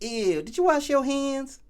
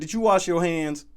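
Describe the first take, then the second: First: It is said imitating Riley from Boondocks. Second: It is said in his ordinary voice.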